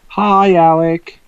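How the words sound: The greeting sounds warm and friendly.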